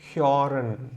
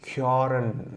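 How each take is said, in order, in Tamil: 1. முதல் உயிரெழுத்து முன்னிழுத்த 'ö' ஒலி. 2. முதல் உயிரெழுத்து முன்னிழுத்த 'ö' ஒலி.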